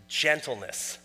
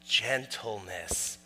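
First: Said in the usual way. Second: Gentleness drawn out slowly, lower and much softer; slow soft repeat. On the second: Shown as a demonstration. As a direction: savor the word Gentleness, slow and hushed.

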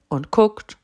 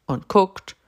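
Both takes have the same delivery.

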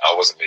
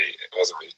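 First: Said in the usual way. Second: "wasn't" breathed in a secret whisper; playful conspiratorial whisper; mock whisper. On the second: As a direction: hush it like a guilty aside. Jokingly denying it was him.

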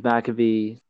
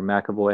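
First: McAvee ending in a long "vee"; alternative pronunciation. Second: McAvoy ending in "voy"; alternative pronunciation. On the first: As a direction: say McAvee, last syllable rhyming with "see". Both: Real, not acted. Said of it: "however the hell you pronounce it".

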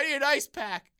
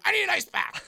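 First: High, loud whiny demand. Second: Much higher, louder frustrated repeat. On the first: Injured friend insisting at the desk, a whiny demand. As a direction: insist like a spoiled diva. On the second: Friend repeating the demand to the concierge, frustrated. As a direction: push harder, fed up now. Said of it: "getting frustrated". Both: Retold or imitated.

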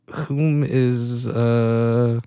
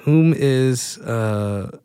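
Both takes have the same delivery.

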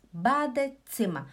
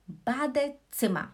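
Both takes have the same delivery.

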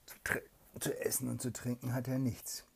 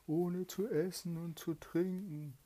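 First: "zu essen und zu trinken" in a hushed whisper; whisper narration. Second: High, loud eerie take of zu essen und zu trinken; spirit voice. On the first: A narrator's reading. Mother reads to her child, hushed whisper. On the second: Acted. Trapped spirit complains of hunger, high eerie voice.

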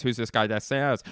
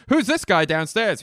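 First: Movie crew impression. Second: High, loud alarmed question; hammed-up shout from the bridge; frantic movie impression. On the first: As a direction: repeat it back in a near-normal voice. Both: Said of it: "here's my impression of".

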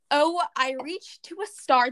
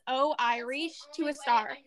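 First: "Oh, I reached to a star" said slowly like the Irish word Oireachtas; teaching how to say Oireachtas as "Oh, I reached to a star". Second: "Oh, I reached to a star" repeated slowly, the way Oireachtas sounds; slow repeated demo of Oireachtas as "Oh, I reached to a star"; saying Oireachtas. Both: Shown as a demonstration. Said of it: "That is how we say Oireachtas".

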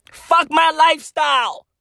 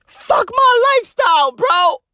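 First: Said in the usual way. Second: High, shouted whine of fuck my lifestyle; mock whiny Elon. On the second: Comic mocking a billionaire's complaint, high whiny shout. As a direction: squeal it like a spoiled billionaire.

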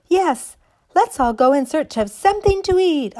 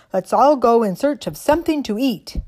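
First: High, loud chorus of dolls; excited dolls crying out. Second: A hint of a toy soldier, louder; stiff barking toy soldier. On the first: Acted. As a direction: cry out eagerly like toys. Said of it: "all the other dollies cried". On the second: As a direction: call out like a little tin soldier. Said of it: "cried the tin soldier".

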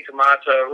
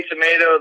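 First: Tomato said British-style, to-MAH-to. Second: Tomato said American-style, to-MAY-to. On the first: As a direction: give tomato a broad "ah" in the middle. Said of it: "they say tomato". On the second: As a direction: give tomato a long "ay" in the middle. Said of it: "you say tomato". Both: Shown as a demonstration.

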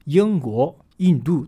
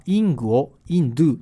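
First: ユンゴをインドゥ with back ng in ユンゴ, front n in インドゥ; native Chinese pronunciation. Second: イングをイ ンドゥ with the same Japanese イン in both; katakana Chinese. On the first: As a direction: say ユンゴをインドゥ as a native Mandarin speaker would. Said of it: "ネイティブは全然これ発音違うんですね". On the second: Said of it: "カタカナ中国語で喋ってる日本人は". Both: Shown as a demonstration.

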